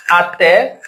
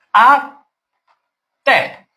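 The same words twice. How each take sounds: First: Said in the usual way. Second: "Até" as A, long pause, té; split into syllables. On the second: Shown as a demonstration. Teacher counting syllables for students, "Até" syllable by syllable. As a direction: break "Até" into two separate beats. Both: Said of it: "Duas sílabas na palavra".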